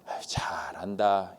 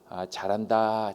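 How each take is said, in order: First: It sounds sarcastic and contemptuous. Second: It sounds sincere and genuinely admiring. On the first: The person is doing badly and looks pathetic. "한심하다는 듯이 보게 되는 것이죠" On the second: The person really is doing well. "진짜 잘한다라는 의미가 되는 것이고"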